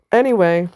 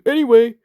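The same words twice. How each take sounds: First: Said in the usual way. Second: Anyway, tossed off higher as the clueless onlooker; mock dismissive anyway. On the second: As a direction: shrug it off in the mocking gawker voice. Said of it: "just looking at you like".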